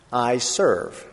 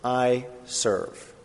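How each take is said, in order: First: "I serve" with I leaned on, falling; slow, weighted "I serve"; stress on I serve. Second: "I serve" slow, I stressed, falling; soft, deliberate "I serve". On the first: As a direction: land on "I", then "serve" falls. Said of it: "two letters make all the difference". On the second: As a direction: press the "I" then let "serve" drop. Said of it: "I don't deserve". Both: Shown as a demonstration.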